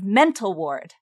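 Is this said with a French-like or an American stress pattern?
American. The stress pattern sounds American, not French. The speaker calls it right. "instead of mental ward"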